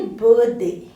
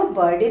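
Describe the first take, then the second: First: बर्थडे with separate "th" and "day"; correct pronunciation. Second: बर्थडे said quickly with a hard "d"; mispronounced. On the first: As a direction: model बर्थडे carefully as "birth-day". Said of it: "What is the pronunciation?". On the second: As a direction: toss off बर्थडे the everyday wrong way. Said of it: "तो बोलेंगे नहीं". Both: Shown as a demonstration.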